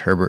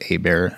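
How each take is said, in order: First: The name is said the usual English way. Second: The name is said without h or t, French-style.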